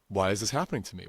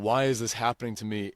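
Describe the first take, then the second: First: It is said in a curious, inquiring tone. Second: It is said in a whiny, complaining tone. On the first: The person wants to understand the cause. The speaker calls it right. "with that point of curiosity" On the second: The person feels like a victim of circumstances. The speaker calls it wrong. "in that whiny, whinging voice"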